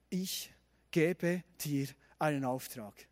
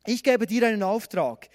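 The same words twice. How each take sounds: First: Slow, low, hushed pronouncement; solemn divine commission. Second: Louder, brisker reading of a command; firm commission. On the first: God commissions Gideon in the story, solemn and slow. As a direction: give each word room, softly and gravely. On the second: God sends Gideon to rescue Israel, firm and loud. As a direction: hand out the task firmly. Same verse resumed, now forceful. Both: A narrator's reading.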